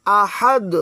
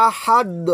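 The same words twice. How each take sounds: First: আহাদ with the final দ bounced like a drop; qalqala echo. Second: Said in the usual way. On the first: Shown as a demonstration. Teacher showing qalqala on আহাদ. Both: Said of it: "drop দেওয়ার মতো উচ্চারণ হবে".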